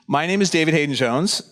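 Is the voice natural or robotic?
natural. It is said in a natural voice. The speaker is a real human. "I'm the real human David Hayden Jones"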